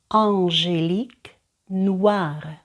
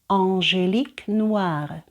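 First: The phrase is said slowly. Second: The phrase is said faster. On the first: "Перший раз я читаю повільно" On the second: "за другим разом я роблю це швидше"

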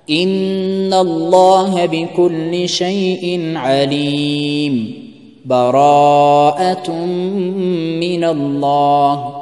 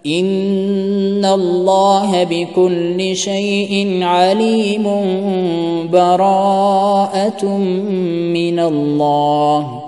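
First: There is a full stop between the phrases. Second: The two phrases are joined without pause.

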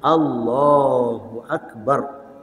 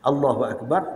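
First: The second syllable of Allahu is held long. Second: The second syllable of Allahu is short. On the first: The speaker calls it right. "Orang betulnya Allahu Akbar. Panjang sikit" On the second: The speaker calls it wrong. "jadi pendek belaka"

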